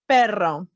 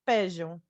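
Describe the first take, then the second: First: The double r is rolled with the tongue. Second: The double r sounds like a buzzing z. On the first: "You can learn to roll your R's" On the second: "You can also say it kind of with a Z sound"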